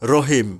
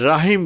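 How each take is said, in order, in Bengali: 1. প্রথম স্বরটি ছোট ও ভারী, কোনো 'aa' নেই। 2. প্রথম স্বরটি লম্বা খোলা 'aa' ধ্বনি। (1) "রহিম, রহিম, রাহিম নয়" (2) "রাহিম বলি অনেকেই বলে থাকে, নো, এটা ভুল"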